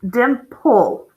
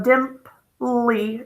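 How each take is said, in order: First: The word ends on the L sound. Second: The final E is sounded as an extra vowel. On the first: The speaker calls it right. "The E is silent" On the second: The speaker calls it wrong. "we don't go dimply"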